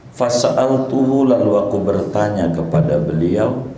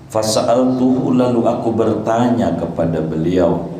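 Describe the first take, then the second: The two takes are said the same way.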